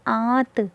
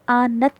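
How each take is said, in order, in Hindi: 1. स्वर नासिकीकृत होता है, उसमें पूरा 'n' नहीं होता। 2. 't' से पहले पूरा 'n' की आवाज़ बोली जाती है। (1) "हल्की सी नाक से आवाज़ निकलेगी" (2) "इसे आनत नहीं पढ़ेंगे"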